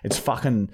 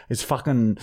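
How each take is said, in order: Both takes have the same delivery.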